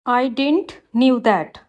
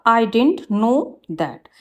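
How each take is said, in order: First: Slow, careful read of the wrong sentence; slow teacher dictation. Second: Slow, careful read of the corrected sentence; slow teacher dictation. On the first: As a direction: spell it out word by word for the class. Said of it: "wrong है". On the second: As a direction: lay out each word clearly for the class. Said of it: "right होगा". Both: Shown as a demonstration.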